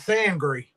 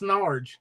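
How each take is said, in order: First: The n sound comes after the first vowel. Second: The n sound comes before the first vowel. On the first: The speaker calls it right. "There we go" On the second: The speaker calls it wrong. "You know damn well that that N was not in front of the A"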